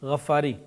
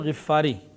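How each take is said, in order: First: The first vowel is 'a' with a doubled 'ff'. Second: The first vowel is 'i' with a single 'f'. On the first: The speaker calls it wrong. "अक्सर हम लोग क्या कह देते हैं" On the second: The speaker calls it right. "कबीले का नाम गफ्फार नहीं था, गिफ़ार था"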